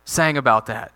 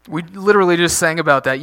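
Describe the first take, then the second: First: Said in the usual way. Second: "literally" leaned on, a bit faster; preacher stressing "literally" to remind the congregation. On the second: Real, not acted. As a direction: press hard on the word "literally".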